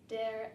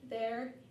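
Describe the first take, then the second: First: The word begins with a d sound. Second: The word begins with a th sound.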